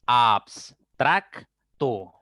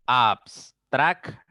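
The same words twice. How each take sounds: First: Abstracto split slowly as abs-trac-to; syllable by syllable. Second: Abstracto said slowly in syllables again, abs-trac-to. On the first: Teacher to pupils, sounding out abstracto in syllables. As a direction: sound out abstracto in three slow beats. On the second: Teacher repeating abstracto slowly for pupils. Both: Shown as a demonstration. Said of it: "debo separar la B y la S".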